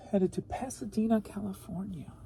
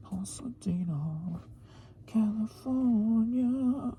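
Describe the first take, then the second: First: Said in the usual way. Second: Breathy drawn-out "Pasadena, California"; whispered slow Pasadena. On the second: Pretend. Vlogger savors the city name, whispered and drawn out. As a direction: whisper "Pasadena" slowly, then stretch "California" long.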